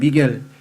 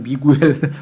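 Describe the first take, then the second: First: The name has two syllables, with no 'u' sound. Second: The name has three syllables, with a 'u' sound. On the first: The speaker calls it right. "스페인 말로는 미겔이라 그래요" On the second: The speaker calls it wrong. "한국식으로 미구엘이라는 사람들도"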